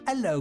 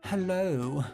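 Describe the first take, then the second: First: It has a Cockney accent with the h dropped. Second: It has a posh accent with the h pronounced. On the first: "stereotypical like Cockney accent" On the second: "a posher accent would be like"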